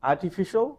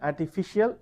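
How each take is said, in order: First: "artificial" ending "shul"; correct pronunciation. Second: "Artificial" ending in two syllables, "shee-al"; mispronounced. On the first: Teacher summing up the right form, correct pronunciation. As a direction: say "artificial" higher, as "ar-ti-FI-shul", tune rising. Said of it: "is the correct pronunciation". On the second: Teacher showing the wrong form, mispronounced. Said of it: "is wrong". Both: Shown as a demonstration.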